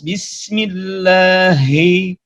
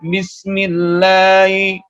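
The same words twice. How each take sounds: First: The h sound is clear and fully breathed. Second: The h sound is weak and barely heard. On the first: The speaker calls it right. "harus jelas" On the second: The speaker calls it wrong. "belum cukup kalau orang membaca"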